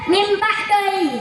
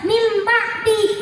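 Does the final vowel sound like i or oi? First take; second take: oi; i. First: The phrase ends in an oi vowel. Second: The phrase ends in a plain i vowel. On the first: "orang Padang beda" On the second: "harusnya dibaca"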